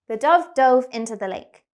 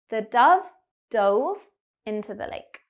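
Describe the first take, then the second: First: The sentence is spoken very quickly. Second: The sentence is spoken slowly. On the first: "I'm going to say the sentence really quickly" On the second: "so I'll slow down"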